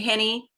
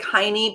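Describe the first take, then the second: First: The first vowel sounds like 'eh'. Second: The first vowel sounds like 'eye'. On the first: The speaker calls it right. "pronounced like Minnie" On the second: The speaker calls it wrong. "it looks like Heine"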